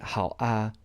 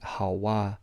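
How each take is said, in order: First: The 'a' is said separately with no linking sound. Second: A 'w' sound links the word into 'a'. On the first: The speaker calls it wrong. "because that would sound very awkward" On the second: The speaker calls it right. "your lips purse into a W kind of sound"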